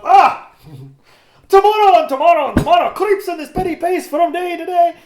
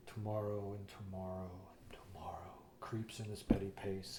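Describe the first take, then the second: First: Much higher, louder Shakespeare declamation; soaring over-the-top Macbeth; big dramatic recitation. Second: Mock a hammy student actor, low and breathy; whispered tragic Shakespeare, overdone; very dramatic classmate. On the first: Retold or imitated. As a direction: belt it out like a ham on stage. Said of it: "I'm up". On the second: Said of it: "he does this very dramatic".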